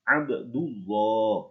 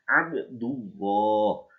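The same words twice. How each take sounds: The two takes are said the same way.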